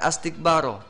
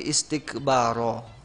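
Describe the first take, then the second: First: The word begins with an 'a' vowel. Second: The word begins with an 'i' vowel. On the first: The speaker calls it wrong. "bukan ah bukan astikbaro" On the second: The speaker calls it right. "tapi istikbaro ya"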